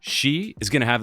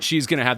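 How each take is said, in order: First: She is said pointedly, singling someone out. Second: She is said flatly, without pointing emphasis. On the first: The speaker calls it right. "like as if he's talking about the person on screen again" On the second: The speaker calls it wrong. "not she's going to have the best swing"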